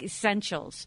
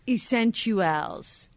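First: The word ends with a 'shuls' sound. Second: The word ends with a 'chuals' sound. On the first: The speaker calls it wrong. "It's not like essentials" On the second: The speaker calls it right. "it's T-U-A-L-S at the end. It's like essentials"

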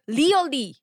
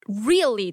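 First: It is said with a Korean accent. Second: It is said with a native-like English accent. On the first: The speaker calls it wrong. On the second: The speaker calls it right.

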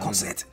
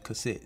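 First: It is said in a German accent. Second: It is said in an English accent.

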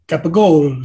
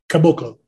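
First: The name is said with extra syllables, Capogolo. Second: The name is said with three syllables, Caboclo. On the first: The speaker calls it wrong. "You're doing a Sopranos impersonation" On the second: The speaker calls it right. "It's Caboclo"

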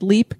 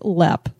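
First: The vowel is a long ee sound. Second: The vowel is a short e sound. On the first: The speaker calls it wrong. "we said Leap Castle" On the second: The speaker calls it right. "It's actually pronounced Lepp"

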